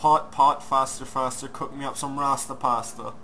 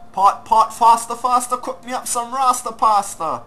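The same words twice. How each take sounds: First: It is said in the speaker's plain everyday voice. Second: It is said in a put-on accent.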